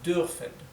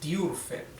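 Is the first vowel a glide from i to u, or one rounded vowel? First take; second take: rounded vowel; glide. First: The first vowel is one front rounded sound. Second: The first vowel glides from i to u. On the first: The speaker calls it right. "finalmente tratan de decir la U umlaut" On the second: The speaker calls it wrong. "pueden decir I U, dürfen ... no suena perfecto"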